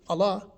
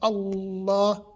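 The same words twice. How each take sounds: First: The L is single and the vowel short. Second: The L is doubled and the vowel lengthened. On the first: The speaker calls it wrong. "We don't say Allah" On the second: The speaker calls it right. "we say Allah, and then we put two A's because we elongate that"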